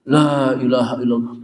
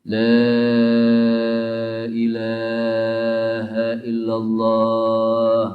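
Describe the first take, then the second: First: It is said harshly, like an angry person. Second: It is said gently and softly.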